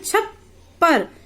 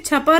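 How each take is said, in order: First: The middle p is held with a brief break. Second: The middle p is short with no break. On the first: The speaker calls it right. "हम बोलते हैं छप्पर। यहाँ पर एक तरह से ब्रेक लग जाती है" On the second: The speaker calls it wrong. "इसे छपर नहीं पढ़ते हैं"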